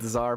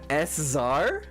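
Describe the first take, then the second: First: The name begins with a buzzing Z sound. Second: The name begins with a hissed S sound. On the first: The speaker calls it right. "I immediately say it correctly" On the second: The speaker calls it wrong. "I jokingly, deliberately mispronounce his last name"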